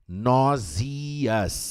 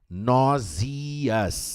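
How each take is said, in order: First: It is said with a British accent. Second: The same.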